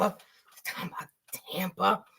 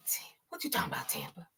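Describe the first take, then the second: First: Fast unvoiced whisper, fading quiet; soft whispered catchphrase; whispered tease. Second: Breathy whisper, fast, trailing off; whispered tease; whispered catchphrase. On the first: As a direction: hush it out quickly as a joke. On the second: Pretend. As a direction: whisper it teasingly at Tampa. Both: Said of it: "playful catchphrase aimed at Tampa".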